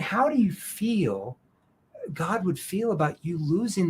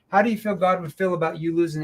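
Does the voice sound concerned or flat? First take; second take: concerned; flat. First: It is said slowly with a concerned tone. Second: It is said quickly with a flat tone. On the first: The speaker cares about the listener. The speaker calls it right. "But if I do it this way" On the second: The speaker shows no feeling. The speaker calls it wrong. "See, there's no emotion involved"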